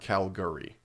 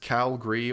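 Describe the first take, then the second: First: The ending is said as two syllables, 'gurry'. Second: The ending is squeezed into one syllable, 'gree'.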